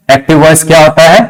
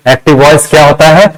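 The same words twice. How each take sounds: The two takes are said the same way.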